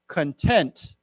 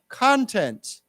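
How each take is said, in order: First: The stress falls on the second syllable. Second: The stress falls on the first syllable. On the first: It means feeling satisfied. "let's say it as 满意, like satisfied" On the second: It means material or substance, like good content. "内容"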